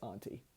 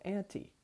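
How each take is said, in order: First: It is said in the speaker's usual non-American accent. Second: It is said with an American pronunciation. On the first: "my usual pronunciation of that word is auntie" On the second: "I'm going to try to use the American pronunciation"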